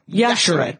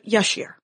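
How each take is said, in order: First: The final E of the name is pronounced. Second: The final E of the name is silent. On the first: The speaker calls it right. "Pronounce the E, people" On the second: The speaker calls it wrong. "who I have always said Yashere"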